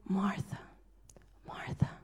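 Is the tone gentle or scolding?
gentle. It sounds tender and intimate.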